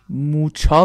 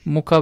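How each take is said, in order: First: The middle consonant is pronounced as 'ch'. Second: The middle consonant is pronounced as 'k'. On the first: "موچا فکر کنم بهش میگن" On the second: "موکا بهش میگن"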